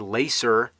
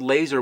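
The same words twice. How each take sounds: First: The middle consonant is an s sound. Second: The middle consonant is a z sound. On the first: The speaker calls it wrong. "You don't say laser" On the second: The speaker calls it right. "I'm glad they spelled laser with a Z because that's how you say it"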